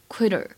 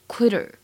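First: The middle t is flapped, like a soft d. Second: The same.

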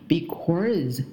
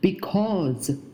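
First: The word ends with an r-colored curl. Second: The word ends without an r-colored curl. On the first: The speaker calls it wrong. "很多中国学生会发成because，也是不对的" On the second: The speaker calls it right. "还有一个单词叫做because"

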